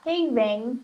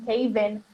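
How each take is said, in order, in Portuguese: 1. O final é dito com um som de -ing completo. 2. O final é dito como um som simples de -in. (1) "na fala é muito comum não falar Caven" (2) "e sim Caven"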